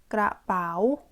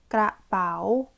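The two takes are said the same way.

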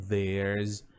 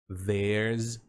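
No difference in how they are said.

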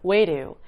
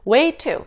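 First: It is said fast with a flapped t. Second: It is said slowly with a clear t.

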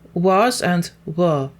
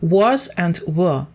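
First: Was and were have reduced, weak vowels. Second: Was and were have full, strong vowels. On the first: "ми використовуємо weak, слабку форму" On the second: "ми використовуємо strong form, так, сильну форму"

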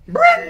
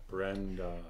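First: The name is screamed loudly and wildly. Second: The name is said softly and limply. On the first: The speaker calls it right. "Yeah, like that. Like a, like, you know, is it a gibbon?" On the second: The speaker calls it wrong. "That's Brenda if she was like a sea plant"

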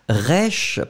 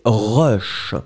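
First: The vowel sounds brighter and less deep. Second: The vowel sounds very deep and dark. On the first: It is an ordinary adjective in standard French. The speaker calls it wrong. "c'est pas rush parce que ça existe et c'est un adjectif qui existe en français normal" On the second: It is the slang form of the word. The speaker calls it right. "le E doit être vraiment très très très grave"

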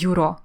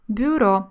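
First: A separate y sound follows the b. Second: No separate y sound follows the b. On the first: The speaker calls it wrong. "Ми не говоримо «бюро»" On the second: The speaker calls it right. "ми говоримо «бюро», не чуємо там «йот»"

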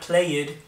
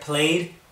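First: The ending is said as an extra syllable. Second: The word is said as one syllable. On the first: The speaker calls it wrong. "not played" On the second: The speaker calls it right. "We're keeping it one syllable"

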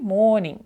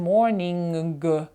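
First: The word ends in a nasal sound only. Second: The word ends with an audible hard g. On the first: The speaker calls it right. "там просто треба задавлювати цей м і все" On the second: The speaker calls it wrong. "деякі люди проговорюють цей звук трошки далі, вони кажуть morning. Г не треба там робити"

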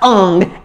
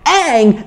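First: The vowel sounds like the 'a' in father. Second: The vowel sounds like the 'a' in cat. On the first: The speaker calls it wrong. "not Ung" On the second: The speaker calls it right.

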